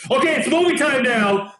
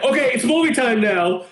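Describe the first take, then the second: First: Firm, higher, no-nonsense announcement; a hint of a stern father; stern dad voice. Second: Firm, higher, no-nonsense call; a dad settling the kids down; lightly voiced stern father. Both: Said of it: "he did it in a very stern voice".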